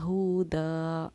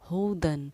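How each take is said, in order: First: The word ends with a long a vowel. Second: The word ends with an n sound. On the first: The reader stops after this word. "अगर हम यहाँ वक्फ करते तो हम इसको पढ़ते एक ज़बर के साथ अलिफ पढ़ा जाता" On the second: The reading continues into the next word. "लेकिन हमने वक्फ नहीं किया, हुदन पढ़ा"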